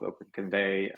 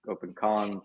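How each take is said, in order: First: The ending sounds like the word 'convey'. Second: The ending does not sound like 'convey'. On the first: "The way we imagine is convey, like you're conveying something" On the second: "you could also pronounce it the other way"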